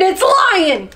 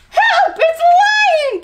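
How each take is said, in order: First: High mock-alarm shout; shouted warning. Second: Very high, loud panicked shriek; frightened cry. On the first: Monkey and meerkat scaring chameleon, shouting. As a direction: call out the alarm, pitch up. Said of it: "they shouted". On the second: Chameleon fooled by a lion disguise, shrieking in fright. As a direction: shriek for help in alarm. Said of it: "Chameleon gasped". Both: A narrator's reading.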